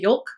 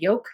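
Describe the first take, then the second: First: The word is said with an L sound. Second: The word is said without an L sound. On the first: "they like put the L in there" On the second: "just say yolk with no"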